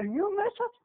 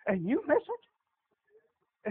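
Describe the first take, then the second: First: Higher, lighter second take; rising take of the warning; higher repeat. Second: Slow, stretched sad warning; a slow sorrowful drawl; slow drawn out. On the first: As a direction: lift it up as a question. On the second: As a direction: draw it out slowly, mournful. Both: Shown as a demonstration.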